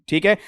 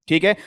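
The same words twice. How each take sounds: The two takes are said the same way.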